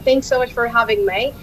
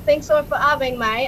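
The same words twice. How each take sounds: First: It is spoken in an American accent. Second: It is spoken in an Australian accent.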